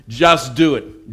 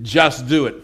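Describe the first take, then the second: First: Drawn-out slow Just do it; slow slogan. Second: Said in the usual way. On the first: Shown as a demonstration. Preacher to congregation, saying Just do it slowly. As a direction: stretch out Just do it with Just leaned on.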